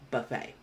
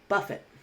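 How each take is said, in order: First: It is said with the noun pronunciation. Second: It is said with the verb pronunciation. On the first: A meal where guests serve themselves. "That's as a noun, so that would be buffet" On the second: To strike repeatedly and violently. "So that would be buffet as a verb"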